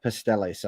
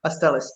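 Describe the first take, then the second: First: Pasteles said like a gringo, English vowels and a flat r; American accent Spanish. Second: Pasteles with pure Spanish vowels, pas-TE-les; native Spanish pronunciation. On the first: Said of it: "I'm gonna say this like a gringo". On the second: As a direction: Pasteles said the Puerto Rican way, crisp and short. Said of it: "pronounce it right". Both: Shown as a demonstration.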